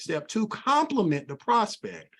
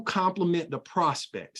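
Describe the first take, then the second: First: "compliment" stressed high and slow; emphatic repeat. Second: Said in the usual way. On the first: Shown as a demonstration. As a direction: punch "compliment" in a higher, slower repeat.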